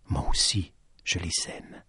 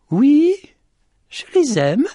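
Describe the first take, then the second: First: Low, hushed and soft; quiet confession. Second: Very high, raised voice; calling back. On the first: The lady confides to Petit Jean, quiet and low. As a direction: let it sink almost to nothing. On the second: The lady answers Petit Jean about her hens, calling back. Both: Acted.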